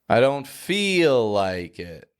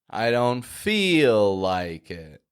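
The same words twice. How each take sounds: No difference in how they are said.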